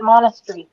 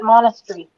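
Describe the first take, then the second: First: It is said with a British pronunciation. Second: The same.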